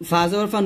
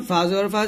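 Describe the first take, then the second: No difference in how they are said.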